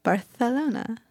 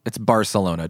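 First: Barcelona said as Barthelona with a Spanish th; Barcelona with the Castilian lisp, th for c. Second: Barcelona said with a plain English s; Barcelona, no lisp, the ordinary s sound. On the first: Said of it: "It's Barcelona. Don't be a douchebag". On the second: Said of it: "Don't be a douchebag". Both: Shown as a demonstration.

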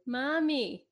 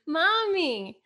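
First: Put-on mild high child's call of Mommy. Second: Put-on high, louder insistent child's Mommy; louder child call. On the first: Kid calls to mom who won't answer, lightly high child voice. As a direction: call out Mommy like a small kid wanting attention. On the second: Ignored kid calls mom again, insistent high child voice. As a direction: call Mommy again, now demanding an answer. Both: Kids calling their silent mom.

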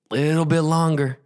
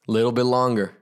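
First: "little bit longer" pitched higher and held; "little bit longer" raised, as if straining underwater; strained suspense. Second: Said in the usual way. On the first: A narrator's reading. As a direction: lift "little bit longer" into a tense, sustained tone. Repeat stretches the suspense higher.

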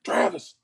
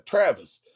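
First: Strained mock yell of a name; retold yell. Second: Raised-pitch, louder retold call. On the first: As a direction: imitate a friend yelling for someone. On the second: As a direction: call across to him, imitating a friend. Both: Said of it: "He yells at him".

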